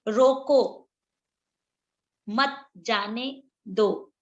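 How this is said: There is a pause right after 'roko'. Stop him; do not let him go. "जो रोको में ये विराम लगा हुआ है"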